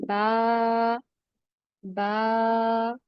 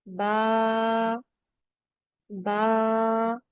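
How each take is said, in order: No difference in how they are said.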